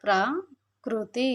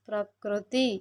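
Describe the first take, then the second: First: ప్రకృతి drawn out very slowly, syllable by syllable; slow demo pronunciation. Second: Said in the usual way. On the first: Shown as a demonstration. Teacher modelling the word for children, very slow. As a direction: spell out ప్రకృతి slowly for the class. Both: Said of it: "పలికేటప్పుడు".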